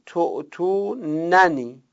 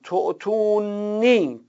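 First: تعطوننی slow, both nuns sounded, to-tu-nan-ni; full reading. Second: تعطونی slow, one nun, ending in long i; first reading. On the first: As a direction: give تعطوننی with the double nun clearly heard. (تعطوننی با دو نون کامل) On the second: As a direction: read تعطونی slowly as to-tu-ni. (تعطونی آهسته با یک نون) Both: Shown as a demonstration.

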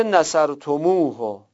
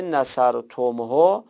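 First: نصرتموه with a long "u" linking م to ه; نصرتموه flowing through an inserted "u" before the final ه; added vav for fluency. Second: نصرتمه with م closed straight onto ه; نصرتمه ending "-tom-ho", consonants meeting; without the added vowel. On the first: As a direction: say نصرتموه as "nasartumuu-ho". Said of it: "این واو اینجا چی کار است". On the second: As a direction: say نصرتمه with no "u" between م and ه. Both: Shown as a demonstration.

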